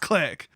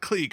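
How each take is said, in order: First: The vowel is a short 'i' sound. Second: The vowel is a long 'ee' sound. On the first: The speaker calls it right. "it's Click" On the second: The speaker calls it wrong. "I keep saying it wrong. It's not Cleek"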